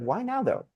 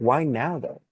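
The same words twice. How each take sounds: First: It sounds quick, offhand and uninterested. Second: It sounds slow, drawn out and deliberate. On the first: The asker does not really care about the answer. The speaker calls it wrong. "surface level. It doesn't sound like you actually care" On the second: The asker genuinely cares about the answer. The speaker calls it right. "I always go like this"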